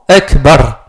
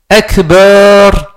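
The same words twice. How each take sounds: First: The vowel after the b is kept short. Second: The vowel after the b is drawn out long. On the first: The word keeps its meaning of 'greatest'. The speaker calls it right. "Donc c'est Allahu, Allahu Akbar" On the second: The word no longer means 'greatest'. The speaker calls it wrong. "Si on fait un mad sur le ba, c'est plus le sens de Akbar"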